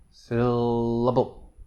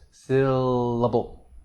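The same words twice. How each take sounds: Both takes have the same delivery.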